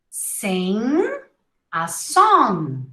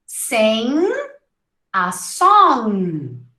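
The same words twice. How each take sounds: The two takes are said the same way.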